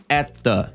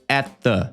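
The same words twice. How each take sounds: No difference in how they are said.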